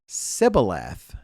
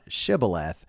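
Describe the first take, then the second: First: The word begins with a plain s sound. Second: The word begins with an sh sound. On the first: The speaker belongs to a different dialect group. The speaker calls it wrong. "he would say Sibboleth, not Shibboleth, for he could not pronounce it right" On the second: The speaker belongs to the local dialect group. The speaker calls it right. "not Shibboleth"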